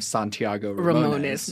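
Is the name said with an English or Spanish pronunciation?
English. The name is said with an anglicized pronunciation. The speaker calls it wrong. "you hear me pronouncing my name"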